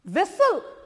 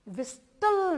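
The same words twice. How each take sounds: First: व्हिसल said with a silent t, vees-al; व्हिसल without the t sound; correct whistle. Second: व्हिस्टल with the t sounded, the way not to say it; wrong whistle. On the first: Teacher showing children व्हिसल without a t. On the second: Teacher showing the wrong व्हिस्टल to children. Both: Shown as a demonstration. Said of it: "व्हिस्टल नहीं बोलेंगे".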